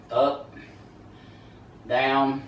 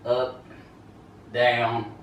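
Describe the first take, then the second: No difference in how they are said.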